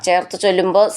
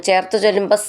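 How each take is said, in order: Both takes have the same delivery.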